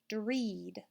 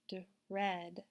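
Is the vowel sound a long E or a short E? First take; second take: long E; short E. First: The vowel is a long E sound. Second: The vowel is a short E sound. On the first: The speaker calls it wrong. "When we read it with the long E sound" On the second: The speaker calls it right. "Let's try it with the short E sound"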